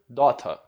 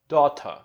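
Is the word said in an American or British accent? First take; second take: British; British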